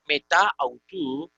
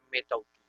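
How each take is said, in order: First: "meta autu" as two words with both vowels sounded; unelided form. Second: "meta autu" contracted into one word, metautu; elided form. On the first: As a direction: hold the a of "meta", then start "autu" separately. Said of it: "no es lo mismo decir". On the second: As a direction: drop one a and run "meta autu" together. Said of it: "que decir". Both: Shown as a demonstration.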